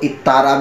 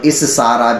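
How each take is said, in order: First: The middle consonant is a doubled t sound. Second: The middle consonant is a doubled th sound. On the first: This reading is also allowed. "इत्तारा भी पढ़ा गया है" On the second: This is the preferred reading. "इस सारा भी पढ़ा गया है"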